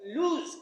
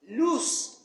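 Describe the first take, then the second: First: It sounds like the verb lose. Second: It sounds like the adjective loose. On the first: The speaker calls it wrong. "the word L O O S E is not pronounced lose" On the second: The speaker calls it right. "It should be loose"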